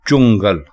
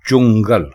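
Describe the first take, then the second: No difference in how they are said.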